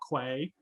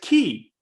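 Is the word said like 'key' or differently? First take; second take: differently; like key. First: The word is not said like 'key'. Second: The word is said like 'key'. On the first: This is how the speaker usually says it. "as I call it" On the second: This is the proper pronunciation. "you're supposed to pronounce"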